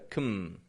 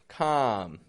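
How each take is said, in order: First: The vowel is reduced to a weak schwa. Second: The vowel is a full open O sound. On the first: The speaker calls it right. "just a kum" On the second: The speaker calls it wrong. "Instead of a regular O"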